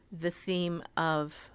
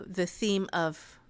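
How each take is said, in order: Both takes have the same delivery.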